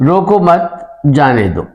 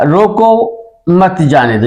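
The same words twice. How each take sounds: First: रोको मत together, break, then slow जाने दो; pause after मत. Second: रोको set apart, then मत जाने दो together; pause after रोको. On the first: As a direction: hold a gap between मत and जाने. (रोको मत, फिर ठहर कर जाने दो) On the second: (रोको के बाद ठहराव, फिर मत जाने दो) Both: Shown as a demonstration. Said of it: "इसकी मिसाल पहले दूं".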